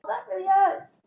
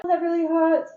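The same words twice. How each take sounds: First: Pained surprise. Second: Mild pained surprise. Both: Retold or imitated. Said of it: "And I was like".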